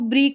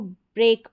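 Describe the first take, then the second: First: The vowel is a long 'ee' sound. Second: The vowel is an 'ay' sound. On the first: The speaker calls it wrong. "इसको ब्रीक नहीं पढ़ेंगे" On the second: The speaker calls it right. "इसको ब्रेक पढ़ेंगे ए करके"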